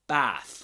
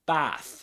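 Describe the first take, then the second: First: The vowel sounds like the vowel in cat. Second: The same.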